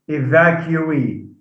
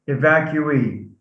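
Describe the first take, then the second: The two takes are said the same way.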